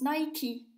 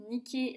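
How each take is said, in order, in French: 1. Le mot se prononce à l'anglaise. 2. Le mot se prononce comme le nom de la déesse grecque. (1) "en anglais, ça se prononce Nike" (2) "c'est le nom de la déesse de la victoire en grec"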